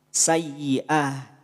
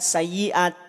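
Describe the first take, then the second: First: The word ends with a soft h sound. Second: The word ends with a t sound. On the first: The speaker calls it right. "bunyinya menjadi bunyi huruf ha" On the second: The speaker calls it wrong. "tidak sayyi'at"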